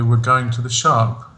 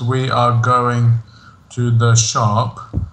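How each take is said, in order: First: The words 'we are' are contracted to we're. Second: The words 'we are' are said in full. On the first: "I would say probably" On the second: "in the sentence"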